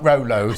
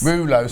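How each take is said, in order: First: The first syllable sounds like 'roll'. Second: The first syllable sounds like 'rue'. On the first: The speaker calls it wrong. "not Rolos" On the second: The speaker calls it right. "Rulos, not Rolos"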